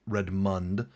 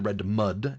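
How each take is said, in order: First: The name ends in -mund, with an n. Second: The name ends in -mud, without an n. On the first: The speaker calls it wrong. "not Redmund" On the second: The speaker calls it right. "it's actually Redmud, M O D"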